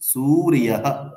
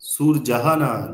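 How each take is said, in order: First: The consonant after r sounds like y. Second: The consonant after r sounds like j. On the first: The speaker calls it right. "কি হবে? সুরিয়াহা" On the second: The speaker calls it wrong. "সংস্কৃতে সুরজাহা না"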